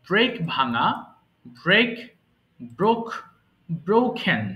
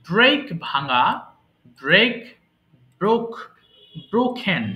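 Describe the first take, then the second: Both takes have the same delivery.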